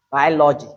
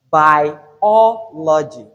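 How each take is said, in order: First: "biology" squashed to three syllables, bye-lo-gy; wrong syllable count. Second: "Biology" very slow in four syllables, loud O; stressed second syllable. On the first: Teacher shows learners the mistake, a syllable dropped. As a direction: swallow the O after BI in "biology". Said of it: "So it's not". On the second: Teacher corrects the mistake, slow loud stress on O. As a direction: break up "Biology" as bi-O-lo-gy, punching O. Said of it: "It is what?". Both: Shown as a demonstration.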